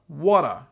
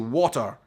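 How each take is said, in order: First: It is said in an American accent. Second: It is said in a Scottish accent. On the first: "in America you guys say it extremely differently" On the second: "in Scotland we say water. Quite a hard way to say it"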